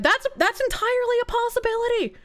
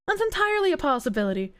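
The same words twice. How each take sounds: First: Entirely stretched long and pitched higher. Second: Quick throwaway. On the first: Repeats phrase, first take drawn out. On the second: To chat, repeating the point briskly. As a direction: rattle off "That's entirely a possibility" fast. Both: Shown as a demonstration.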